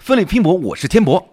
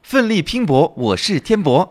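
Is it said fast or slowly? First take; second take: fast; slowly. First: It is said at a faster pace. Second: It is said at a slower pace.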